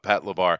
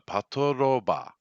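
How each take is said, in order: First: The name is said with an English pronunciation. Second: The name is said with a Japanese pronunciation. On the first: "I'm pronouncing it with the English pronunciation" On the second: "in Japan it's a"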